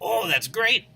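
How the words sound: It is said in a thrilled, delighted tone. The speaker is delighted about what happened. "he's really thrilled about this"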